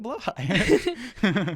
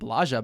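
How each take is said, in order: First: The word ends with a 'high' sound. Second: The word ends with a soft 'ja' sound. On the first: The speaker calls it right. "It's actually pronounced more like blowhigh" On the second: The speaker calls it wrong. "frequently pronounced bla- pronounced Blaja by you"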